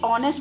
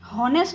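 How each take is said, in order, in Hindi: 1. इसकी शुरुआत स्वर की आवाज़ से होती है। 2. इसकी शुरुआत h की आवाज़ से होती है। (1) "ऑनेस्ट बोलते तो ओ साउंड आता है" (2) "हॉनेस्ट नहीं बोलते"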